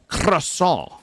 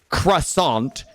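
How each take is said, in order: First: It is pronounced with a French accent. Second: It is pronounced with an American English accent. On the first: The speaker calls it right. "it is croissant" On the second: The speaker calls it wrong. "the way people in America say croissant"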